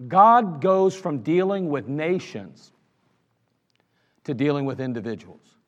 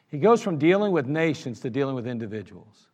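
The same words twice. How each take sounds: First: Slow emphatic teaching line. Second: Said in the usual way. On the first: Shown as a demonstration. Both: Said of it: "repeated teaching line".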